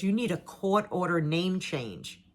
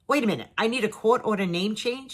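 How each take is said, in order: First: Said in the usual way. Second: Retold double-take, querying the lawyer's words; disbelieving question. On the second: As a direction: repeat it back as a baffled question.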